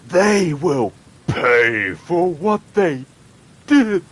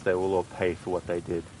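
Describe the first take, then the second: First: The line is said with overblown, dramatic intensity. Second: The line is said calmly with restrained energy. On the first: The speaker calls it wrong. "Over exaggerated" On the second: The speaker calls it right. "which is pretty, you know, low key"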